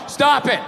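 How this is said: It is said in a flat reading.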